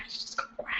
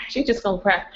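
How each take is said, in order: First: Whispered and breaking, real tears close. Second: Said in the usual way. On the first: Real, not acted. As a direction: let it go to breath only, no voice.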